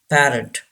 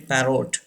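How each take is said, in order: First: The last syllable has a weak 'uh' vowel. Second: The last syllable has a full 'o' vowel. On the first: The speaker calls it right. "Second R is not pronounced, and O gives the sound of a" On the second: The speaker calls it wrong. "Don't say parrot, it's wrong"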